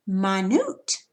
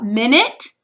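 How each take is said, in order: First: Minute said my-NOOT, end stressed; second-syllable stress. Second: Minute said MIN-it, front stressed; first-syllable stress. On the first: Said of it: "accented syllable is the second syllable". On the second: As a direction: hit MIN at the start of minute. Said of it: "accent is on the first syllable". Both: Shown as a demonstration.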